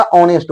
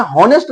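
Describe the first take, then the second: First: ऑनेस्ट, no h, starting on the open o; silent h "onest". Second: हॉनेस्ट, h sounded at the start; wrong "honest" with h. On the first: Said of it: "इसमें हॉनेस्ट नहीं होता". (सही उच्चारण "ऑनेस्ट", h silent) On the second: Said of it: "ऑनेस्ट होता है". (गलत उच्चारण "हॉनेस्ट", h के साथ) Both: Shown as a demonstration.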